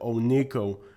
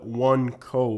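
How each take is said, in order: First: It is said as one word, 'Onico'. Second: It is said as two words, 'One Co'. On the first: It is how most people say it today. "today most people pronounce it Onico" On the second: It keeps the original name, One Company. "many people call it One Co because originally it was called One Company"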